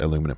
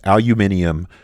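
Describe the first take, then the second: First: It is said with four syllables, American style. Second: It is said with five syllables, British style. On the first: This is the American name. "here in the United States, we call it aluminum" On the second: This is the British name. "if you grew up speaking British English, you would probably call this aluminium"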